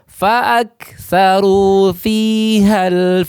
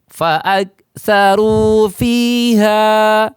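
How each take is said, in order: First: The vowel is short and linked onward. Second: The final vowel of fiha is held long. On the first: The reciter joins it to the next word. "Ha yang tadinya panjang berubah menjadi tidak panjang" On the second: The reciter stops after this word. "dibaca waqaf"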